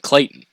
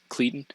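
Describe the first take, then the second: First: The first vowel sounds like 'ay'. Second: The first vowel sounds like 'ee'. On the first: It is said the way the family says it. The speaker calls it right. "but they pronounce it Clayton" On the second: It is read the way it is spelled. The speaker calls it wrong. "it's spelled like Cleet, Cleton"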